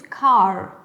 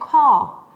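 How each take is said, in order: First: The R at the end is clearly pronounced. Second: The R at the end is not pronounced. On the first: "En American English es car" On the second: "en British English voy a decir car"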